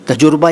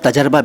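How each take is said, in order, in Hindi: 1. शब्द को taj-ur-ba ऐसे बोला जाता है। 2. शब्द को taj-ar-ba ऐसे बोला जाता है। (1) "बिल्कुल नहीं" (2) "बिल्कुल नहीं"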